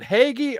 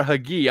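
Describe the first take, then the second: First: Hagee as HAY-ghee, stress on the first syllable; first pronunciation. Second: Hagee as huh-GHEE, stress on the last syllable; alternative pronunciation. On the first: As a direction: say Hagee with a long "ay" up front. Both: Shown as a demonstration. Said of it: "so I pronounced it both ways".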